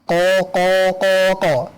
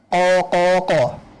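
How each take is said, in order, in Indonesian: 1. Vokal panjang ditahan selama empat ketukan. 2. Vokal panjang ditahan selama tiga ketukan. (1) "Empat harokat" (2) "Tiga harokat"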